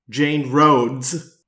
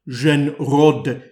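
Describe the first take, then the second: First: The name is said with an American pronunciation. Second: The name is said with a French pronunciation. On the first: "as Americans would pronounce it" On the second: "as the French would say"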